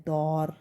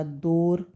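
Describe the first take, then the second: First: दौर with an open 'au', like 'dawr'; correct au vowel. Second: दौर wrongly said with a closed 'o', like 'dor'; mispronounced o vowel. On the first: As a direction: say दौर as 'dawr', not 'dor'. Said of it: "वैसे सही शब्द होता है". (दौर में खुली 'औ' की ध्वनि) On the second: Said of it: "दौर कोई शब्द नहीं है". (दौर को गलत 'दोर' बोलें) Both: Shown as a demonstration.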